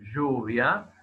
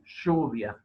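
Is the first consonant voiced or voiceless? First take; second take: voiced; voiceless. First: The first consonant is voiced, with buzzing. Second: The first consonant is voiceless, like a hiss. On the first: It is associated with certain social classes. "las cuerdas vocales sí están vibrando" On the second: It matches the stereotype of Buenos Aires speech. "En este caso no vibran las cuerdas vocales"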